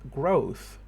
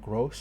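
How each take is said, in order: First: The word ends with a th sound. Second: The word ends with an s sound. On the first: The speaker calls it right. "The word growth uses a th sound" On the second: The speaker calls it wrong. "The substitution happens again"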